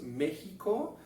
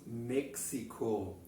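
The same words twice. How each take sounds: First: México con j española, mexiko; así no se dice en alemán; México en español. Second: México con ks, meksiko; México en alemán. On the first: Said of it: "no decimos México". (México a la española) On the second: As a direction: dilo con ks como en alemán. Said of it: "sino decimos México". (México a la alemana) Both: Shown as a demonstration.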